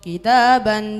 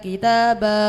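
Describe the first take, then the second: First: The word ends with an n sound. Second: The word ends with a lengthened vowel. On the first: "fathatan yang dibaca wakaf" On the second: "dibaca kitaba; panjangnya satu alif atau dua harokat"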